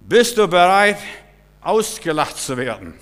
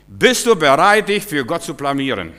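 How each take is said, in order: First: High loud call, du pushed up; loud challenge. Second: Loud challenge. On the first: Preacher repeats his challenge to the congregation, high and loud. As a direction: shout Bist du bereit with du up high. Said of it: "repeated challenge, different voice". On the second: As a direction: call out bereit, hitting du hard. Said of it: "preacher challenges the congregation". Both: Acted.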